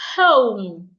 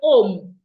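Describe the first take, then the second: First: The word begins with an h sound. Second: The word begins without an h sound. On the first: The speaker calls it right. "if the H is not silent, then the H must be pronounced" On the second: The speaker calls it wrong. "without the H. They take out the H. That is wrong"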